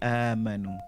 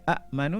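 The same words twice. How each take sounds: First: It begins with one long drawn-out vowel. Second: It begins with two separate glottal-stop vowels. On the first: This is how it is actually read. "jadi amanu" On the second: This is the underlying original form. "Sepatutnya a a amanu kan?"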